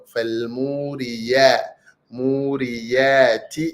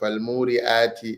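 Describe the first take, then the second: First: The vowel after the ya is long. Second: The vowel after the ya is short. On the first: The speaker calls it right. "It is ya with mad" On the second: The speaker calls it wrong. "Not والموريات or فالموريات as we hear some"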